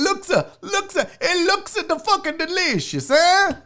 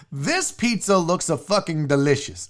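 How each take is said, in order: First: Bad Italian accent, high, laughing; hammed-up Italian accent through laughter. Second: Said in the usual way. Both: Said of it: "My Italian is as bad as my Russian".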